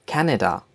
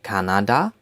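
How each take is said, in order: First: Said in the usual way. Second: "Kanada" in German, open 'ah' vowels, rising end; German-style "Kanada", lifted at the end; German pronunciation. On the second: Shown as a demonstration. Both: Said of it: "In German, we say Kanada".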